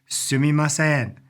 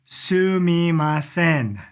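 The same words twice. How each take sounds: First: Said in the usual way. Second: Slow, stretched SUMIMASEN, syllable by syllable; drawn-out syllables. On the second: Shown as a demonstration. Teacher introducing a new Japanese word, slow and drawn out. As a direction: sound out Sumimasen very slowly and evenly.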